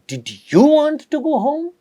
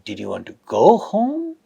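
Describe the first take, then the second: First: The rise falls on the word you. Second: The rise falls on the word want. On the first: "at the fourth one, at you" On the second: "in the third one, at want"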